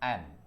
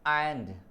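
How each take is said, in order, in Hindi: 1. अंतिम d ध्वनि silent रहती है। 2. अंतिम d ध्वनि साफ़ बोली जाती है। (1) "डी साइलेंट हो जाएगा, इसका प्रोनाउंसिएशन केवल केवल करेंगे एन" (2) "लोग इसको स्पीच करते हैं एंड"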